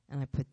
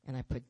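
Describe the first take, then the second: No difference in how they are said.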